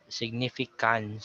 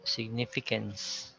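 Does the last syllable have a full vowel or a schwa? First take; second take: full vowel; schwa. First: The last syllable has a full 'a' vowel. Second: The last syllable has a reduced schwa vowel. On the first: The speaker calls it wrong. "there's a tendency for us to pronounce the A sound" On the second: The speaker calls it right. "there should be no difference between the two words"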